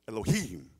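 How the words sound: The middle consonant is a harsh, throaty sound. The speaker calls it right. "It's that in the middle"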